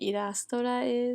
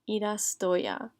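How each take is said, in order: First: The final syllable is pronounced ra. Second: The final syllable is pronounced ya. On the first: The speaker calls it wrong. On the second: The speaker calls it right.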